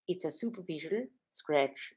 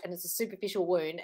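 First: Slow, soft imitation of an Austrian accent. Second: Said in the usual way. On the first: Doctor calling a wound a scratch, in an Austrian accent. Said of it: "in her Austrian accent". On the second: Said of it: "I was saying".

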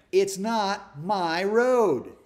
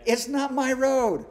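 First: Drawn-out, louder, each word weighed: It's not my road; slow emphatic self-reminder. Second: "It's not my road" pitched higher and louder, punching road; high emphatic repeat. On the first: Pastor reminding himself about the speed limit, slow and emphatic. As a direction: say "It's not my road" slowly and heavily, like a mantra. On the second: Pastor repeating his speed-limit mantra to the congregation, loud and high. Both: Shown as a demonstration. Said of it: "that's what I keep telling myself".

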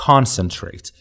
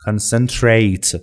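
First: Concentrate with the stress on CON, CON-cen-trate; correct stress. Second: Concentrate said very slowly with the stress wrongly on CEN, con-CEN-trate; deliberately mis-stress concentrate, leaning on CEN. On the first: Teacher to students, modelling the correct stress on CON. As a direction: say concentrate the right way, leaning on CON. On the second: Teacher showing students the common mistake, slow, stress on CEN. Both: Shown as a demonstration.

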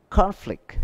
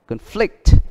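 First: CONflict, high stressed CON, then falling; first-syllable stress. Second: ConFLICT, second syllable high and stressed; verb stress on conflict. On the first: Teacher reading nouns, conflict with first-syllable stress. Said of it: "đều nhấn âm đầu". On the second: Teacher reading it as a verb, conflict with second-syllable stress. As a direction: punch the FLICT in conflict. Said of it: "động từ". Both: Shown as a demonstration.

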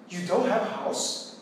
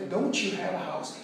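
First: Slow, rising on "don't" in surprise; teacher showing surprised question intonation to students. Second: Said in the usual way. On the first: Shown as a demonstration. Surprised rising question. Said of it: "você usa a entonação de pergunta". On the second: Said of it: "Ou seja".

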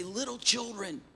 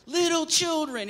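First: A soft, tender call to the flock; lightly voiced old apostle, gentle and quiet; tender elder. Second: Higher and louder, a fond mother-hen cry; hen-like elder call. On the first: Old John the Apostle calls his church, softly tender. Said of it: "And he would say". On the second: Retold or imitated. Old John calls his little children to him, high fond call. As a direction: call the flock in like a clucking hen. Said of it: "just like a hen".

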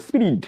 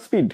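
First: "স্পিরিট" as "spirid", r in the middle and d at the end; mispronounced speed. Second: "স্পিড" as "speed", no r after the p; correct pronunciation. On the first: Retold or imitated. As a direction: mimic the pupils' wrong "স্পিরিট" for speed. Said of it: "স্পিরিট বলে". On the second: Shown as a demonstration. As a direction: model "স্পিড" cleanly for pupils who add an r. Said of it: "উচ্চারণটা স্পিড".

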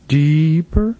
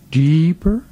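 The two takes are said the same way.

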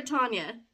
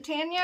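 First: Tanya with the first a as in "father"; first vowel of Tanya open, like "ah"; broad-a Tanya. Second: Tanya with the first a as in "tan"; first vowel of Tanya like "cat"; short-a Tanya. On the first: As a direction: say Tanya as TAHN-ya. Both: Shown as a demonstration. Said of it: "Is it Tanya or Tanya?".

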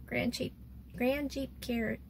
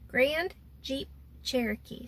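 First: "Grand Jeep Cher-" broken off mid-name; tongue-tied stumble. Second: "Grand Jeep Cherokee" slowly, word by word; careful articulation. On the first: Naming the rental vehicle to viewers, tongue-tied stumble. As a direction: trip on "Grand Jeep", restart, cut "Cher-" short. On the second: Retrying the rental vehicle's name for viewers, careful articulation. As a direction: separate "Grand", "Jeep", "Cherokee" with small gaps. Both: Real, not acted. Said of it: "Say that six times in a row".

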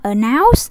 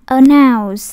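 First: "announce" with NOUNCE sliding upward; wrong rising tone. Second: "announce" with a loud NOUNCE, no upward slide; level tone stress. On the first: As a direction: say "announce" as if asking, end rising. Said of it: "Đâu có đọc dấu sắc đâu". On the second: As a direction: hit NOUNCE firmly and don't let it rise. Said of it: "Người ta đọc thanh ngang". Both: Shown as a demonstration.

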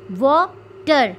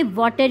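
First: "water" slowly broken in two, a gap between the syllables; split into two syllables. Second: Said in the usual way. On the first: Shown as a demonstration. Teacher showing two sounds, "water" slowly split by syllable. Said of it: "दो sound हमारे मुंह से निकली". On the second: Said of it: "दो sound हमारे मुंह से".

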